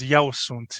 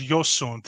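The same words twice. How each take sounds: First: The pronoun sounds like 'eh-oo', Bucharest style. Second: The pronoun sounds like 'yo', Transylvanian style.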